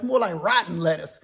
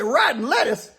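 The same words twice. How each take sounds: First: Said in the usual way. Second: Pitched up in disbelief; incredulous echo. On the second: Retold or imitated. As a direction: repeat it like you can't believe it. Al can't believe the answer.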